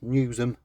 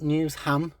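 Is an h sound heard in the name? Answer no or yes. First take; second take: no; yes. First: The name is said without an h sound. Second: The name is said with an h sound. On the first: This is how locals say it. The speaker calls it right. "it's not pronounced H, it's Newsham" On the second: This is how outsiders say it. The speaker calls it wrong. "not Newsham"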